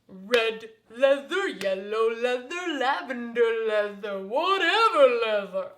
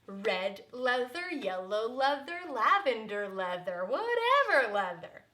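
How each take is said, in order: First: It is said in a big booming voice. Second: It is said in a normal speaking voice.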